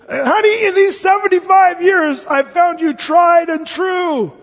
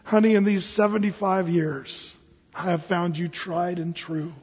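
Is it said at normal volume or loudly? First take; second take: loudly; normal. First: It is said loudly, with a raised voice. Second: It is said at normal volume.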